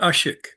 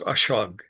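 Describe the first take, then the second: First: The word is said in a non-Armenian form. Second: The word is said in its Armenian form. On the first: "there's various ways to pronounce that word" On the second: "Armenian pronunciation"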